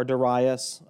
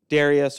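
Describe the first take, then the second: First: Darius stressed on the second syllable, duh-RYE-us. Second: Darius stressed on the first syllable, DAIR-ee-us. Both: Shown as a demonstration. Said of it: "however you choose to pronounce his name".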